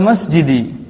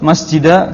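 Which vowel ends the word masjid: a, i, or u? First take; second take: i; a. First: The word ends in an i vowel. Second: The word ends in an a vowel. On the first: The speaker calls it right. "Di kasrah" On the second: The speaker calls it wrong. "Antum nggak boleh ucapkan"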